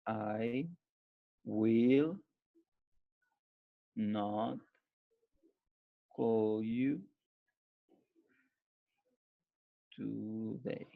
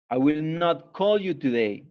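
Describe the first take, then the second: First: I will not call you today, spaced word by word with long pauses; word-by-word dictation. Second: Said in the usual way. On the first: Shown as a demonstration. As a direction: dictate each word separately so they can write it down. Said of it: "dictates word by word, then whole". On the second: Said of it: "says the whole sentence after dictation".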